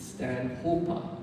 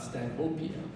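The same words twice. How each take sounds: First: Stanhopa said stan-HOPE-a; corrected pronunciation. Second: Stanhopea said stan-HOPE-ee-a; old mispronunciation. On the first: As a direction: say Stanhopa without an "ee" before the final a. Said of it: "another one I've been pronouncing wrong". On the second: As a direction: say Stanhopea with an extra "ee" before the final a. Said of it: "and not Stanhopea". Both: Shown as a demonstration.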